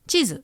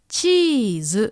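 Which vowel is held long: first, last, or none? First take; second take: none; first. First: No vowel is lengthened; both are short. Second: The first vowel is lengthened, not the last. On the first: The speaker calls it wrong. "No long vowel mark, so it sounds short" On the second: The speaker calls it right. "It's stretching the E sound"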